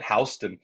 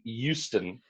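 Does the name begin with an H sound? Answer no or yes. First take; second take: yes; no. First: The name begins with a clear H sound. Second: The name begins without an H sound. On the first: This is how people in New York say it. "they call it Houston" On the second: This is how locals of the Texas city say it. "you just throw away the H"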